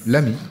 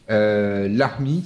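First: The name is pronounced in a plain way. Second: The name is pronounced like a Maghrebi name. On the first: The speaker calls it right. "Pas du tout" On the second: The speaker calls it wrong. "Je l'ai prononcé comme si c'était un nom maghrébin"

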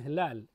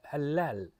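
First: The consonants are said short, as written. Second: A consonant is doubled and held longer.

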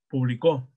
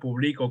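First: The stress is on the last syllable. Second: The stress is on the middle syllable. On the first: "Como aguda" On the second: "como grave"

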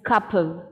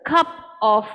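First: The word 'of' is linked and shortened to 'v'. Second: The word 'of' is said fully and separately.

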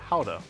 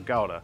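First: It is said the Dutch way. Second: It is said the common English way. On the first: This is how it is said where it originated. "in the Netherlands it's called Gouda" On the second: This is how most people outside the Netherlands say it. "most of us call it Gouda"

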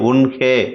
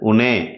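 First: The word is said in full, careful form. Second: The word is said in a shortened casual form. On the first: This is the written, formal form. "எழுத்து வழக்கில்" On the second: This is the everyday spoken form. "பேச்சு வழக்கில்"

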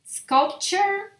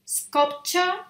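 First: The ending is a reduced 'chur' sound. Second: The final vowel is more fully pronounced. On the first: "en inglés un poquito más americano terminarían como en chur" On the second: "en inglés británico sonaría como un poquito más pronunciada la A"

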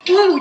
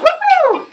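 First: It is said in a flat, sarcastic way. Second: It is said with genuine, happy enthusiasm. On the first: The person is not enjoying it at all. "Or being sarcastic like" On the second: The person is really having fun. "having fun and actually like"

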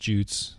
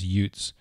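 First: The word is pronounced the English way. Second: The word is pronounced the Scandinavian way. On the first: "The English pronunciation is" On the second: "Some of the more Scandinavian is"

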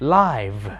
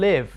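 First: The vowel is a diphthong, as in 'five'. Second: The vowel is short, as in 'give'. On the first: It is the adjective meaning broadcast in real time. "adjective นะครับหรือคำคุณศัพท์เนี่ยจะออกเสียงว่า live" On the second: It is the verb meaning to reside. "verb นะครับออกเสียงว่า live"

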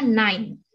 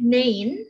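First: The vowel sounds like 'ai' as in 'eye'. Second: The vowel sounds like 'ei' as in 'day'. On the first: The speaker calls it right. "tapi bacanya nine" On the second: The speaker calls it wrong. "bukan nine"

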